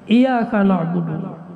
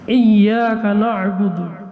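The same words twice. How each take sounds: First: The y sound is short and single. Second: The y sound is held long and doubled. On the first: We worship the sunlight. The speaker calls it wrong. "kepada cahaya matahari kami menyembah" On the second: You alone we worship. The speaker calls it right. "karena engkau kami menyembah"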